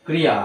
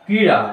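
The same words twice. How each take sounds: First: ক্রিয়া read with a plain y glide, kri-ya; wrong reading. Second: ক্রীড়া said with a flapped ড়, kree-ra, not kri-ya; correct pronunciation. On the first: Teacher shows the wrong reading কিরিয়া to his students. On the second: Teacher drills the correct ক্রীড়া with the flapped ড় for his students. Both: Shown as a demonstration. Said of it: "ক্রিয়া নয়, ক্রীড়া".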